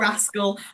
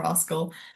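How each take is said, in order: First: It is said in a northern English accent. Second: It is said in a southern English accent. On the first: This is how the cat's owner says the name. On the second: This is how the speaker herself says the name. "but I call him"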